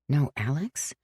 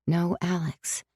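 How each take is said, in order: First: "No Alex?" quiet, rising in disbelief; doubting question. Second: "No Alex." quiet, falling, settled; flat statement. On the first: Sam doubting she can live without Alex, rising question. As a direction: ask "No Alex?" as if it hurts. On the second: Sam imagining life without Alex, flat falling statement. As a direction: say "No Alex." as a done fact. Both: A narrator's reading. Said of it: "Then her heart squeezed tight".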